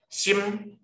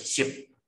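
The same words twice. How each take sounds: First: 心 high, level and held; first tone. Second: 心 short and low, lips shut; fourth tone. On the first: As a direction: hold 心 on a high note. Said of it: "第一声是长音". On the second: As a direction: cut 心 off low. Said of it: "第四声就是心". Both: Shown as a demonstration.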